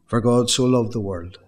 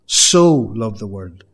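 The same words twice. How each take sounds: First: Said in the usual way. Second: "so" drawn out, louder and slow; slow, loud "so loved the world" with the weight on "so"; stress on SO. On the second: Shown as a demonstration. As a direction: savour the word "so".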